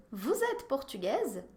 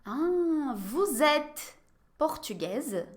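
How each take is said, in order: First: Said in the usual way. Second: "vous êtes portugaise?" very slow, word by word; slow model question. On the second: Shown as a demonstration. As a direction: drag the question out for learners. (pergunta bem devagar) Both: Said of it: "Je vais vous poser quelques questions".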